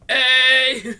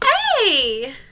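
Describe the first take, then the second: First: It is said in a garbled, demonic voice. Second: It is said in a normal voice.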